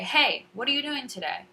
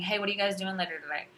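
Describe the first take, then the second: First: High, loud HEY with clearly inflected words after it; emphasis and inflection. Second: Quick, run-together casual question; casual slangy speech. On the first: Teacher greeting English learners, clear emphatic inflection. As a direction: punch HEY high, then enunciate each word. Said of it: "more emphasis and inflection". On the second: Teacher showing what not to say to students, quick casual speech. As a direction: toss it off fast, in everyday chat. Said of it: "instead of saying". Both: Shown as a demonstration.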